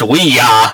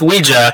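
First: It is said as 'we' plus 'ya'. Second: It is not said as 'we' plus 'ya'. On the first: "so it should be pronounced we ya" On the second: "I've been going with Ouija"

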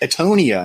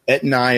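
First: The name is said as Etonia. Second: The name is said as Etnaya. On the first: The speaker calls it wrong. "Everybody says Etonia" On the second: The speaker calls it right. "that's actually how you pronounce it"

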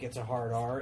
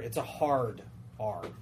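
First: The R is said in a normal American way. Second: The R is overcorrected and hard, like a Brit.

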